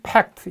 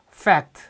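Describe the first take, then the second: First: It begins with both lips touching then opening. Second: It begins with upper teeth on the lower lip. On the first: It means an agreement or treaty. The speaker calls it wrong. "입술끼리 닿다 떨어지면 fact 이렇게 돼요" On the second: It means a truth or reality. The speaker calls it right. "윗니빨로 아랫입술을 물었다가 놓으면 fact"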